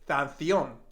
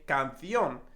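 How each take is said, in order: First: The first c is said as th. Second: The first c is said as k. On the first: The speaker calls it wrong. "I'm not going to say canción" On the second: The speaker calls it right. "but I'm going to say canción"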